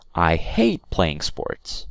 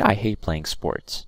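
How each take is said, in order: First: It is said with a word made louder. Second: It is said flat, with no extra loudness. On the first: The speaker calls it right. "when you want to emphasize a word, say it more loudly" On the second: The speaker calls it wrong. "I don't say"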